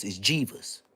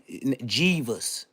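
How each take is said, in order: First: Jeeves with a rising end, for Jesus; it's Jeeves, the auntie's way; Aunt Hefe's Jeeves. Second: Jeeves said as "Jeeves" like Aunt Hefe says Jesus; Aunt Hefe's Jeeves. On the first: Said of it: "the way Aunt Hefe would say it". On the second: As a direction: give Jeeves the auntie way. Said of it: "You gotta say Jeeves". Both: Shown as a demonstration.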